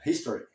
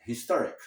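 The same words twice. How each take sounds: First: "History" stressed on the first syllable; "History", ending in ee; history, the noun. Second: "historic" stressed on TOR; "historic", ending on a k; historic, the adjective. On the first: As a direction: say "History" as HIS-to-ry. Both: Shown as a demonstration. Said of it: "você tem que usar a palavra".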